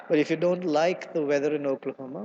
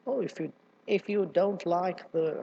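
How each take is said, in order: First: Said in the usual way. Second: Put-on a slow, tentative stab at a southern accent; attempted southern accent. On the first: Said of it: "I don't even know how to say it". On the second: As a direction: try the southern accent, then falter. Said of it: "in that southern accent".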